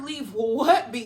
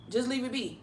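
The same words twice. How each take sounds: First: "what" stretched long and loud; incredulous stress on WHAT. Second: Said in the usual way. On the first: Retold or imitated. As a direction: throw it back, leaning hard on "what". Her incredulous echo of his words.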